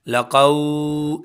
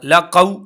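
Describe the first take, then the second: First: The final vowel is stretched out long. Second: The final vowel is cut off with a jerk. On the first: "एक तो हमने लंबा नहीं करना, लक़ौ ऐसे नहीं करना" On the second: "एक हमने यहाँ पर झटका नहीं देना"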